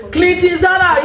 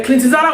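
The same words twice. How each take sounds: First: Mock shout. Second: Said in the usual way. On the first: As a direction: yell Clinton Zara across the room. Calling out a name, mocking.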